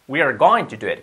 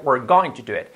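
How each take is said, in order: First: We are is said as two full words. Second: We are is squeezed into one syllable.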